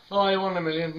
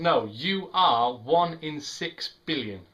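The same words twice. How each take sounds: First: Higher, mildly hammed-up flattery; mock gushing. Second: Slow, weighted "you are one in six billion"; emphatic correction. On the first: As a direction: imitate someone paying a gushy compliment. Mimics the compliment again. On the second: Real, not acted. Corrects the mimicked compliment.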